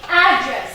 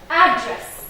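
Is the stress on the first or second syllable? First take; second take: first; first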